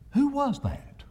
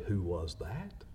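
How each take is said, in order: First: High, scared little voice; trembling child voice. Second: Soft, low reflective repeat; quiet. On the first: A narrator's reading. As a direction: whimper it like a frightened child. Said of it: "a trembling voice asked the other". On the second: Shown as a demonstration. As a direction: say it softly and plainly. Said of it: "We don't want others to say".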